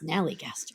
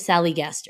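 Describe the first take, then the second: First: It begins with 'snal', with an n sound. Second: It begins with 'sal', with no n sound. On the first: The speaker calls it right. "It's a Snallygaster" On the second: The speaker calls it wrong. "I always say it wrong, I want to call it the Sallygaster"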